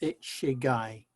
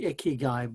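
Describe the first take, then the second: First: The middle consonant is a 'ch' sound. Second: The middle consonant is a 'k' sound. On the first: The speaker calls it right. "but it's ichigai" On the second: The speaker calls it wrong. "it looks like it should be ikigai"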